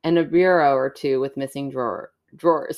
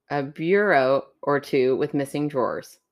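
First: "bureau" mangled, sounding like "bi-ro"; "bureau" stumbled and misspoken; bureau said wrong. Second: "bureau" as clear "byoo-roh"; bureau said carefully. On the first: Real, not acted. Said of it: "A bur-, a bur". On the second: Shown as a demonstration. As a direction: enunciate "bureau" correctly.

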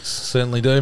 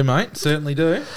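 First: Said in the usual way. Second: Higher, broad Aussie bloke voice; aussie tradesman. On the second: Pretend. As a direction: lay on the ocker tradie twang. Mates bantering, repeated catchphrase.

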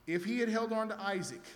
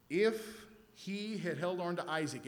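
First: Higher and louder, leaning on had; emphatic. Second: Said in the usual way. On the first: Shown as a demonstration. Preacher pressing the point home to the congregation, emphatic. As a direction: punch the repeated line harder.

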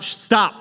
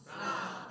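First: A sharp, loud, higher stop; shouted stop. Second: A breathy whispered "Stop." with no voice. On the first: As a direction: bark the word "Stop." out loud at the crowd. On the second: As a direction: drop "Stop." to a hushed whisper. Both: Shown as a demonstration. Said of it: "Someone just shout".

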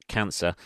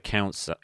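First: Said in the usual way. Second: "cancer" with the first vowel slipping to "ow"; slip on cancer. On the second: Real, not acted. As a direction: say "cancer" as "cown-suh". Slips, then repeats the word.

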